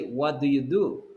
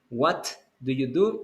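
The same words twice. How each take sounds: First: The T in 'what' is cut off. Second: The T in 'what' is fully released. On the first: The speaker calls it right. "You don't have the explosion in the T" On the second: The speaker calls it wrong. "you're not going to say"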